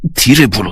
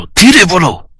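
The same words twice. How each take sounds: First: Restrained "धीरे बोलो" at normal pitch; hushing. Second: "धीरे बोलो" sharply raised in pitch; insistent hushing. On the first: Doctor hushing the angry nurse, restrained. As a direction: tell her to keep it down, controlled. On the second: Doctor silencing the angry nurse, insistent. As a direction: repeat the order urgently, voice jumping high. Repeats the hush more forcefully. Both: Acted.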